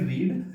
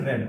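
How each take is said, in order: First: The word has a long 'ee' vowel. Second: The word has a short 'e' vowel. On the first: It is the present form of the verb. "पहले वाले को पढ़ेंगे, इसको पढ़ेंगे रीड" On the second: It is the past form of the verb. "दूसरे वाले को जैसे ही पढ़ेंगे इसको पढ़ेंगे रेड"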